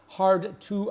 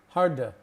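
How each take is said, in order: First: Each word is said separately and clearly. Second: The words are run together in fast speech. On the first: The speaker calls it wrong. "Not hard to understand" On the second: The speaker calls it right.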